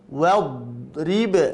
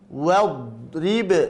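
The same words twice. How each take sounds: First: The r is followed by an i vowel. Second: The r is followed by an i vowel.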